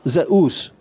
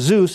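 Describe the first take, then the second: First: The two vowels are said as separate sounds. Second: The vowels blend into one English u sound. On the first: This is how the name was said in ancient Greece. "pronounced the epsilon and the upsilon as two separate vowel sounds" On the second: This is how the name is said in modern English. "The pronunciation Zeus is an English pronunciation"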